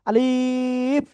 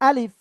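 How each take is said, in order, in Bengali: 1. স্বরটি টেনে ও দীর্ঘ করে বলা হয়েছে। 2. স্বরটি ছোট রাখা হয়েছে, টানা হয়নি।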